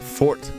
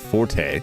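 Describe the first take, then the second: First: It is said as one syllable, ending in t. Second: It is said as two syllables, ending in a vowel. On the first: The speaker calls it right. "Forte is pronounced fort" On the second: The speaker calls it wrong. "not forte"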